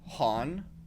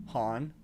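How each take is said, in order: First: The name begins with an H sound. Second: The same.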